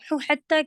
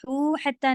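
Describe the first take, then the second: First: The sounds run smoothly into the next word. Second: The last sound is held, then joined. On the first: The speaker calls it right. "तो हू हत्ता कहना है" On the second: The speaker calls it wrong. "हू हत्ता नहीं"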